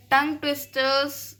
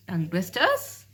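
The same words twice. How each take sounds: First: tongue twisters repeated higher, each word set apart; emphatic repeat of the term. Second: Said in the usual way. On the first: Shown as a demonstration. Teacher naming the next topic to students, tongue twisters stressed high.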